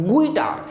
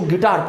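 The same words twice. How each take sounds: First: गुइटार with the u sounded, gu-itar; wrong guitar. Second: गिटार with silent u, gi-tar; correct guitar. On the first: Teacher demos the wrong गुइटार. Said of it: "आपको गुइटार नहीं पढ़ना है". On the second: Teacher gives students the right गिटार. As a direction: says गिटार with no u sound. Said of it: "तो गिटार पढ़ना है". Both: Shown as a demonstration.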